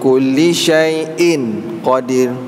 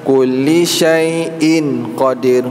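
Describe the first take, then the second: The two takes are said the same way.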